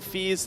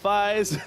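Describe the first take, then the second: First: The vowel sounds like ee. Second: The vowel sounds like eye. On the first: The speaker calls it right. "You pronounce it Fees" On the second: The speaker calls it wrong. "not Fies"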